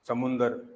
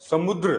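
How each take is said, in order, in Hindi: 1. बीच को नासिक 'nd' और एक स्वर के साथ बोला जाता है। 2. बीच को 'dr' के संयुक्त वर्ण की तरह बोला जाता है। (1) "गांव में बोलते हैं" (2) "सब शुद्ध शब्द होता है समुद्र"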